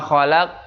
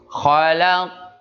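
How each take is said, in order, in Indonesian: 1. Huruf q di akhir dipotong dengan hentian glotal. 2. Huruf q di akhir dilepas dengan pantulan terbuka. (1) "ini seringnya diakhiri dengan huruf hamzah" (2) "Ini yang benar adalah yang pertama"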